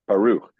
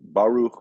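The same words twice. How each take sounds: First: The stress is on the last syllable. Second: The stress is on the first syllable. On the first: The speaker calls it right. "The accent is on the last syllable" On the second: The speaker calls it wrong. "that's actually not correct as far as accenting"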